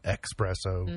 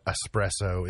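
First: ESPRESSO said with an X, EX-presso; mispronounced espresso. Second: Said in the usual way. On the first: Shown as a demonstration. Host explaining a common mistake, ESPRESSO said as EX-presso. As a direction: put a hard K sound into ESPRESSO: EX-presso. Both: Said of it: "is not espresso".

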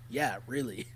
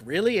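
First: Low, quieter, stone-faced reply; deadpan. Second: Higher-pitched questioning "really?"; chuckled disbelief. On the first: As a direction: imitate someone confirming it without a flicker of humour. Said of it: "completely deadpan, stone face". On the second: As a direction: mimic a reporter's amused double-check. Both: Retold or imitated.

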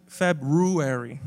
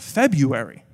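First: Slow "February" as "Feb-ROO-ary"; "February" drawn out with a clear "ROO"; correct pronunciation. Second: "February" as "FEB-you-airy", leaning on "you"; slow "February" with a "you" sound; common pronunciation. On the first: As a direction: sound both r's in "February", stressing "roo". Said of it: "It's actually February". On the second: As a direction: drop the first r in "February", say "Feb-YOU-ary". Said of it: "it's not February". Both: Shown as a demonstration.

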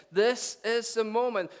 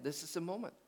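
First: High, loud, slow and emphatic; climactic proclamation. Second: Soft, understated delivery; hushed announcement. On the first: Preacher voicing Jesus to the crowd, proclaiming. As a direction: proclaim each word to a huge crowd. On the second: Preacher voicing Jesus to the congregation, hushed. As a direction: let it land quietly. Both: Acted.

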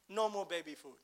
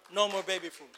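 First: Said in the usual way. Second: Louder, punched second time; emphatic repeat. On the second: Real, not acted. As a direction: drive it home with force.

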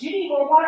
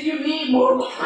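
First: High, loud rising question through the door; a kind host calling in to check on her guest; host offering water. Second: Louder firm statement with the weight on more, falling; host insisting. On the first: Host calls through the bathroom door, high rising offer. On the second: Host overrules her guest's refusal, firm and falling. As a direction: she isn't asking now, she's telling. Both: Retold or imitated.

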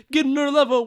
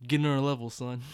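First: "Getting on a level" squeaked up high and louder; high-pitched. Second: Said in the usual way. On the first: Shown as a demonstration.

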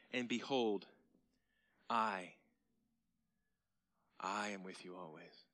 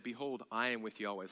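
First: "I" isolated by a pause, then hushed; emphatic Greek I. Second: Said in the usual way. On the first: Shown as a demonstration. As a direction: stress "I" as the Greek pronoun. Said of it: "He doesn't have to say that". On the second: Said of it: "He could have just said".

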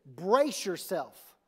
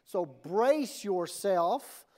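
First: "Brace yourself" stretched slowly, BRACE stressed; drawn-out emphasis. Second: "brace yourself" very slow, rising end; slow stretched emphasis. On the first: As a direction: lean hard on "Brace" and draw it out. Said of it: "the title of my message is this". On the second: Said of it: "everybody right now, brace yourself". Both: Shown as a demonstration.

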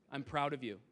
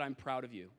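First: Tender praise. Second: Gentle praise. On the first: Real, not acted. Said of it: "I might get emotional". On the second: Retold or imitated. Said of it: "wish that I had said".

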